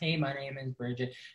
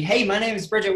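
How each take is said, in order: First: It is said flatly, with low energy. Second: It is said brightly, with high energy.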